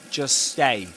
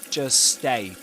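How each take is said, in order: The two takes are said the same way.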